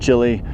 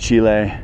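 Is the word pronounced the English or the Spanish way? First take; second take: English; Spanish. First: The name is said with an English pronunciation. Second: The name is said with a Spanish pronunciation. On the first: "the gringo way" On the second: "The Spanish way"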